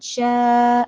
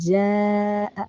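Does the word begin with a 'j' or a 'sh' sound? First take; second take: sh; j. First: The word begins with a 'sh' sound. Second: The word begins with a 'j' sound. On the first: The speaker calls it wrong. "ഷാഅ പറഞ്ഞാൽ തെറ്റാണ്" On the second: The speaker calls it right. "ജീമ് നാവിന്റെ മധ്യത്തിൽ നിന്നാണ് വരേണ്ടത്"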